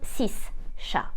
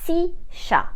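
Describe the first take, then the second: First: The final consonant of six is pronounced. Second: The final consonant of six is silent. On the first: The speaker calls it wrong. "and not" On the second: The speaker calls it right. "I will say"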